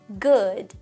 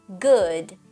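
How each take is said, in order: The two takes are said the same way.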